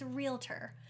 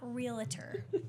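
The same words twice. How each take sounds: First: It is said without an extra inserted syllable. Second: It is said with an extra inserted syllable. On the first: The speaker calls it right. "for the masses, it's realtor" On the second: The speaker calls it wrong. "but not realtor"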